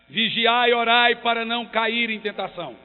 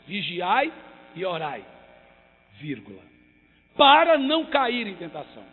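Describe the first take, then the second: First: It is read straight through without a pause. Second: There is a clear break after 'orai'.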